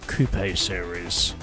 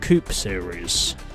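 First: Coupe is said in the European way. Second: Coupe is said in the non-European way.

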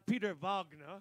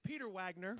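First: The name is said in a grand, dramatic way. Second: The name is said in a plain, ordinary way. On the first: The speaker calls it wrong. "not Peter Wagner. Even though Peter Wagner sounds way more dramatic" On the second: The speaker calls it right. "I'm going to say Peter Wagner"

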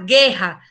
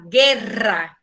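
First: The r sound is weak. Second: The r sound is strong. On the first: The speaker calls it wrong. "você não fala guerra" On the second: The speaker calls it right. "fala guerra... essas duas R têm som forte"

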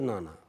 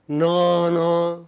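First: The vowels are short and central. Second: The vowels are long and extreme, English-like. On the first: The speaker calls it right. "We say na na" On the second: The speaker calls it wrong. "we do not say na na"

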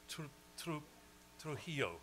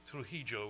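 First: It is said without an Argentine Spanish accent. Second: It is said with an Argentine Spanish accent. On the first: The speaker calls it right. "I have to get" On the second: The speaker calls it wrong. "rather than Trujillo, which is how my little Spanish is Argentine Spanish"

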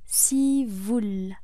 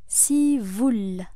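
Both takes have the same delivery.

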